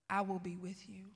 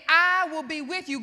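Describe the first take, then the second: First: Low, soft divine reassurance; God's quiet voice. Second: Loud, preached declaration; God's emphatic promise. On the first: God reassuring the preacher's father, quiet and low. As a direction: say it softly and low, as God speaking. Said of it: "hearing God very clearly say this". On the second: God answering a fearful Moses, loud and emphatic. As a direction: proclaim it forcefully, as God speaking. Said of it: "God was saying". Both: Retold or imitated.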